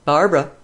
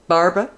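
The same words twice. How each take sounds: First: A clipped call down the hall, falling at the end; sharp call. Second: A second sharp call, pitched up with a rising end; sharp call again. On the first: Mistress calls her servant Barbara into the hall, sharp call. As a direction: call out sharply, first try. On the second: Mistress calls Barbara a second time, sharper and rising. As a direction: call out once more, rising. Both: A narrator's reading. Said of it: "called sharply".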